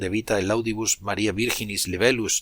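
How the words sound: The Latin is pronounced in the traditional Spanish style.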